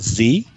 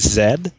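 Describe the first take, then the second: First: The letter name is said the American way. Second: The letter name is said the British way. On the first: This is the form Canadian English avoids. The speaker calls it wrong. "not Z" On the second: This is the form Canadian English requires. The speaker calls it right. "in Canadian English we must say Z ... it's the British way of saying it"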